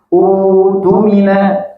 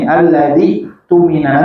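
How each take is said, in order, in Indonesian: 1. Dibaca sendiri, dimulai dengan u panjang. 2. Disambung dengan kata sebelumnya, tanpa u panjang. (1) "kalau misalkan ibu baca di awal saja... Maka berubah jadi badal" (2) "kalau diwasol dari lafaz sebelumnya itu tidak jadi badal"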